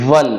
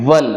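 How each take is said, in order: The two takes are said the same way.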